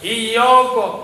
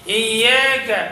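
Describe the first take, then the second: First: The long vowel is made thick and heavy. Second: The long vowel is made extra thin. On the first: "मोटा कर दिया अलिफ को" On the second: "उसको और बारीक कर दिया"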